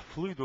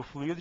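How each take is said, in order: First: Fluido stressed on FLUI, two syllables; diphthong form. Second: Fluido split as flu-Í-do; hiatus form. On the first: Teacher offers first contextual form, fluido stressed on the U. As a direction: say fluido as FLÚI-do. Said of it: "Você pode empregar". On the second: Teacher offers second contextual form, fluido stressed on I. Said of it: "de acordo com o contexto". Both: Shown as a demonstration.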